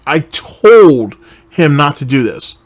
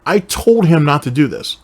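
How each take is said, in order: First: Slowed and louder, each word of I told him not to do this pressed; slow emphatic repeat. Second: Said in the usual way. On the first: Retold or imitated. Hammering the quote home to the viewers, slow and emphatic. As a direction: drive the quote home slowly. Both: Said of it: "he just told you right here".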